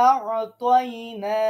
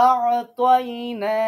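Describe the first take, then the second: No difference in how they are said.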